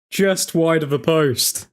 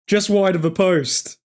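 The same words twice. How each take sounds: First: Slower, let down, sinking; deflated. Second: Slightly raised, lingering excitement; still worked up. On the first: Fan repeating the near miss to himself, deflated. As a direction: let the disappointment settle in. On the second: Fan still reeling from the near miss, mildly excited. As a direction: say it while still buzzing from the chance. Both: Real, not acted.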